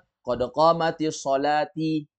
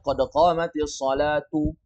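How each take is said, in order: First: The last word ends with an i vowel. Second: The last word ends with an u vowel. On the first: The speaker calls it wrong. "Jangan dibaca qad qamatis sholati" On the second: The speaker calls it right. "Jadi bacanya qad qamatis sholatu"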